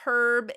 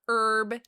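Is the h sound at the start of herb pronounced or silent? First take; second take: pronounced; silent. First: The word begins with an audible h sound. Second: The word begins with no h sound. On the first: The speaker calls it right. "There's an H for a reason, right? Right. It's herb" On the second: The speaker calls it wrong. "It's not herb. If it was herb, there would be no H"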